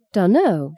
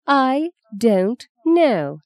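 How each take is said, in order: First: Dunno run together lazily; slurred dunno. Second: I don't know said slowly, every word crisp; articulated correction. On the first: Justine shrugs off her grandmother, lazy Dunno slurred. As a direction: mumble Dunno as one slack word. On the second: Grandmother corrects Justine's speech, slow crisp I don't know. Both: Shown as a demonstration. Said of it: "Fee corrected".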